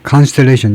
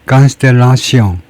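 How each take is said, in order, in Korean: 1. 이 단어는 영어식으로 발음합니다. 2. 이 단어는 프랑스식으로 발음합니다. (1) "영어로는 이제 Constellation이고" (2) "불어 발음으로는 Constellation"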